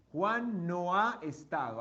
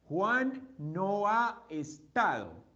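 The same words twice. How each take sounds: First: Said in the usual way. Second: Slow spelled-out phrase. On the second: Shown as a demonstration.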